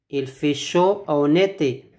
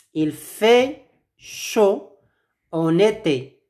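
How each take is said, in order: First: Said in the usual way. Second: Slow model phrase. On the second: Shown as a demonstration. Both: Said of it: "Répétez après moi".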